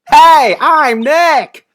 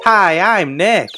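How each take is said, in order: First: It is said at a loud volume. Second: It is said at a quiet volume.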